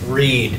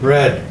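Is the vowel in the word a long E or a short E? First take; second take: long E; short E. First: The vowel is a long E sound. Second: The vowel is a short E sound. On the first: The reading happens in the present. "Long E sound" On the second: The reading happened in the past. "Sounds like R-E-D"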